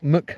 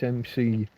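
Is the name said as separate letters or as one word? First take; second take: one word; letters. First: It is said as a single word, 'muck'. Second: It is said as two separate letters. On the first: The speaker calls it wrong. "it's not Muck" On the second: The speaker calls it right. "It's M C"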